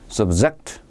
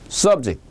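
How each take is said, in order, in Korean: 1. 강세는 두 번째 음절에 있어요. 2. 강세는 첫 번째 음절에 있어요. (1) "이건 동사입니다" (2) "이 명사고요"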